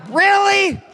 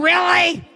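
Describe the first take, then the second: First: Bigger incredulous shout. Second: Incredulous. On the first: To the crowd, mocking their weakness, a bigger incredulous shout. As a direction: push the disbelief over the top. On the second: To the crowd, who lose to car salesmen, incredulous shout. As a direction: throw the question at the crowd in disbelief. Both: Real, not acted.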